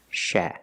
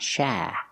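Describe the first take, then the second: First: The vowel is relaxed and moderate. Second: The vowel is overdone and exaggerated. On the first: The speaker calls it right. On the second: The speaker calls it wrong.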